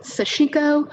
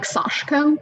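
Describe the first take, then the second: First: It is said in an anglicized way. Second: It is said in a Japanese-like way. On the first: This is how some people say it. "some people pronounce it Sashiko" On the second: This is how Japanese speakers say it. "sort of speaking Japanese, have pronounced it more like Sashiko"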